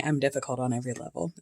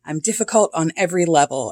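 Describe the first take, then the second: First: Fast, much softer throwaway repeat; quick quiet aside. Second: Said in the usual way. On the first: Shown as a demonstration. Repeating the quote to herself as a soft, quick aside. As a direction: toss "I'm difficult on every level" off under her breath, quickly.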